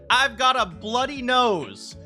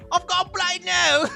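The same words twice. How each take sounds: First: It is said in the speaker's usual accent. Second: It is said in a British accent.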